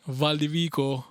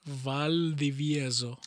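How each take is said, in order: First: The name ends with the syllable 'vico'. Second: The name ends with the syllables 'vieso'. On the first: The speaker calls it wrong. "every time they come in the speaker, it's like" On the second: The speaker calls it right. "it's gonna be something like Valdivieso"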